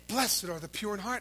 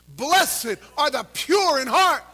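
First: Said in the usual way. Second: Loud, high, slow recitation; recited with the crowd. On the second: Shown as a demonstration. Preacher leading congregation in reciting the verse, slow loud recitation. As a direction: lead the crowd through each word slowly. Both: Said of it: "Ready to quote it with me?".

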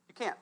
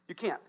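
No difference in how they are said.

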